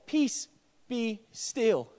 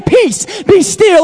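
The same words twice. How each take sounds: First: Much softer, gentle and low; "Peace, be still" said softly and low; soft quoted command. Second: Louder, higher, commanding; "Peace, be still" loud and high, full of authority; forceful command. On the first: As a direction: let it fall quietly, almost calm. Quiet first quoting of command. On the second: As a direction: muzzle the storm with authority. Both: A narrator's reading.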